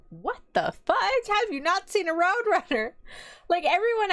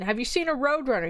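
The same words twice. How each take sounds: First: Retold high-pitched disbelief; shocked. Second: Said in the usual way. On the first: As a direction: act out being stunned, pitch shooting up. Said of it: "I was shocked". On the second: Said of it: "[name], as a Texan".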